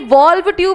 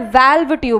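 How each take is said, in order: First: The vowel in valve sounds like 'law'. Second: The vowel in valve sounds like 'cat'. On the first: The speaker calls it wrong. "वो actually वॉल्व tube नहीं होता है" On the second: The speaker calls it right. "वैल्व tube होता है"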